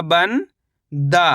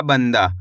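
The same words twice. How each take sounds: First: "बन" rising, pause, then "दा" falling; split syllables. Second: Said in the usual way. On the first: Shown as a demonstration. Teacher spelling out the word by syllables, split syllables. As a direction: keep बन and दा as separate syllables. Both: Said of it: "तो मिलके बन जाएगा".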